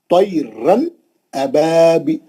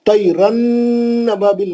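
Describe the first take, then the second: First: तैरन अबाबी- with the nun cut short, no hum; crisp n ending तैरन, separate from अबाबी-; clear nun. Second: तैरन अबाबिल with a long hummed n; raised pitch, droning nnn in तैरन अबाबिल; wrongly held nun. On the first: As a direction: stop the final n of तैरन at once, then start अबाबी-. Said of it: "वहीं पकड़ लेना नून को". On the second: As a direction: stretch the final n of तैरन into अबाबिल. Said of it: "नहीं पढ़ना मुझको". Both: Shown as a demonstration.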